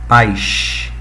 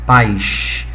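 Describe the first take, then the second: First: The word is said with the carioca hiss. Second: The word is said with the carioca hiss.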